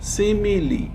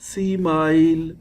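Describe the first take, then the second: First: The word sounds like simile. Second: The word sounds like smile. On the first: The speaker calls it right. "The correct pronunciation is simile" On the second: The speaker calls it wrong. "Don't pronounce it like smile"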